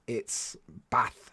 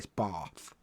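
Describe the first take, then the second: First: It has a short, flat northern English vowel. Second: It has a long southern English 'ah' vowel.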